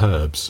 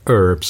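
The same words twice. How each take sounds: First: It is said the British way. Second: It is said the American way. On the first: "and not herbs" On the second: "generally people in the US say herbs"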